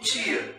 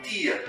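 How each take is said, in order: First: The word begins with a ch sound. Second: The word begins with a plain t sound. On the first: "a imensa maioria dos brasileiros pronuncia a sequência T I A como tia" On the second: "e não tia"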